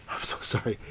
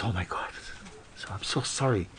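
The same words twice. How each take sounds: First: Breathy whispered sorry; whispered apology. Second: Softer, sheepish sorry; quiet embarrassed apology. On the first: Guest apologises again, whispering. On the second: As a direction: apologise under your breath, embarrassed. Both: Acted.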